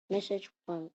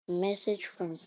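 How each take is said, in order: Both takes have the same delivery.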